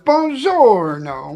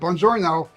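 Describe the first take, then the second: First: The greeting is said lively, with strong melody. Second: The greeting is said flat, with little melody. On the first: "It was buongiorno" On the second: "It wasn't like I would say it"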